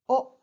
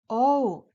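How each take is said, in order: First: A short pure 'o' vowel. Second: A gliding 'oh' vowel as in old. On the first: The speaker calls it right. "a short sound" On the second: The speaker calls it wrong. "not pronounced O, like old"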